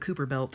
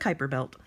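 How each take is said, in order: First: The first syllable sounds like 'coo'. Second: The first syllable sounds like 'ky'. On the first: The speaker calls it wrong. "I used to think it was called the Cooper Belt" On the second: The speaker calls it right. "he pronounced it Kuiper. So I guess it's the Kuiper Belt"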